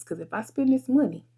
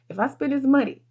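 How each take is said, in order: First: Said in the usual way. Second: Sighing repeat. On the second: Real, not acted. Repeats the phrase with a sigh.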